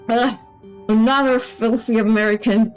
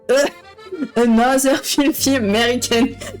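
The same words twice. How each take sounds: First: It is said without a French accent. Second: It is said with a French accent.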